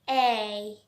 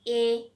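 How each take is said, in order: First: The vowel is long and widely spread. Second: The vowel is short and not spread. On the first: "This one will be so longer and so spreaded one" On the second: "from our childhood, we have just learned that A"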